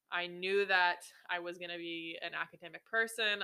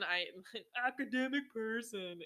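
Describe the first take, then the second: First: Said in the usual way. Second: Laughing, self-mocking repeat of academic person; mock your old self, academic person with a laugh; mocking echo. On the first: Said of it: "that was silly of me". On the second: Shown as a demonstration. To listeners, mocking her old belief with a laugh. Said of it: "that was, that was silly of me".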